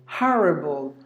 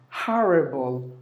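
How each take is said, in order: Both takes have the same delivery.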